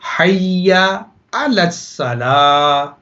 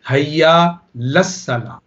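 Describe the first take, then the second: First: The vowel before 'la' is clearly pronounced. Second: The vowel before 'la' is dropped entirely. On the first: The speaker calls it right. "ये सही प्रोनाउंसिएशन है" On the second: The speaker calls it wrong. "गलत जो है वो है"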